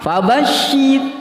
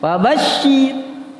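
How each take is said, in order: Both takes have the same delivery.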